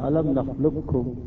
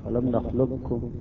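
No difference in how they are said.

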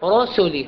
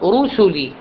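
First: The first vowel is not a fully rounded u. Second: The first vowel is a fully rounded u. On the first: The speaker calls it wrong. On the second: The speaker calls it right.

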